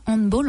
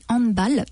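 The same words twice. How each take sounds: First: It is pronounced like an English word. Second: It is pronounced like a German word. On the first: The speaker calls it wrong. "on ne dit pas handball" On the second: The speaker calls it right. "on dit handball, parce que ce n'est pas un mot anglais, c'est un mot allemand"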